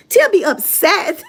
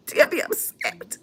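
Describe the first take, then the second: First: Laughing. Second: Breathy whispered aside through laughter; laughing whisper. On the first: Repeats louder laughing. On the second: Laughing aside about Tia. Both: Real, not acted.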